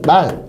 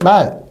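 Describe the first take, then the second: First: The vowel is said short. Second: The vowel is said long. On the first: It means a horse that one rides. "이렇게 짧게 발음해야겠죠" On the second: It means speech that people say. "이렇게 길게 발음해야죠"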